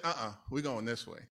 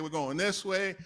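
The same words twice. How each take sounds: First: Lower, softer, calm correction; voice of the Lord. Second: Said in the usual way. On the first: Retold or imitated. The Lord answering the preacher, lower and softer. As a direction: gently overrule him as God would. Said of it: "And the Lord said". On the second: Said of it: "and I'm like".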